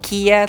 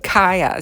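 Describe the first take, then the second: First: The name sounds like the car brand Kia. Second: The name does not sound like the car brand. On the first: The speaker calls it wrong. "like Kia, like the car" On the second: The speaker calls it right. "you're supposed to pronounce it Kaya"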